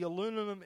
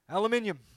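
First: It is said the American way, four syllables. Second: It is said the Australian way, five syllables.

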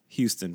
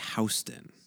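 First: Houston is said with its usual pronunciation. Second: Houston is said with the New York pronunciation. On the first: It names the Texas city and university. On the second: It names the New York street.

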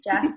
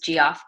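First: The name begins with a J sound. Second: The name begins with a hard G sound. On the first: The speaker calls it right. "he's Jeff" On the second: The speaker calls it wrong. "everyone thinks it's G-off"

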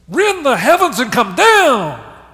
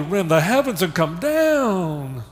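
First: It is said in an angry, demanding tone. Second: It is said in a sad, pleading tone. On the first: It is a cry for justice. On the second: It is a plea for help. "Or is it a mournful"

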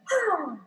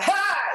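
First: It is said as a breathy sigh. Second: It is said without a breathy sigh.

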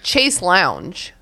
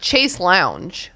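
First: The second word sounds like 'lounge'. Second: The same.

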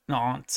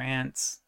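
First: The vowel sounds like the one in 'father'. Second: The vowel sounds like the one in 'ants'. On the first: The speaker calls it right. "if you pronounce it correctly, if you're fancy" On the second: The speaker calls it wrong. "it's our horrible American English that we just say aunt"

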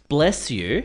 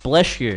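First: The s in bless is a clear, plain s. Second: The s in bless sounds like sh. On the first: "I don't say bless you" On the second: "I say bless. Bless you. Like, blesh"

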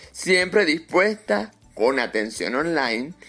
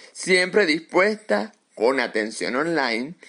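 Both takes have the same delivery.

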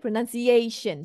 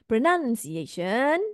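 First: Only the fourth syllable, "a", is stressed. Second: Many syllables are stressed equally. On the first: The speaker calls it right. "A is the stress" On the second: The speaker calls it wrong. "So it's not pronunciation. Too many stress there if you do that"

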